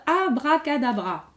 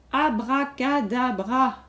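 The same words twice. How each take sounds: First: Said in the usual way. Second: Slow, deliberate. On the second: Shown as a demonstration. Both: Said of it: "Allez, à vous de compter".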